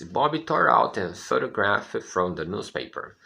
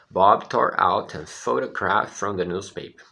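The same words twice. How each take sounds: First: Slow, careful reading of the sentence; slow model reading. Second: Said in the usual way. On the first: Shown as a demonstration. Teacher reading the sentence slowly for students, careful. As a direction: read it slowly for the class. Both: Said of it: "Olha o que a frase diz".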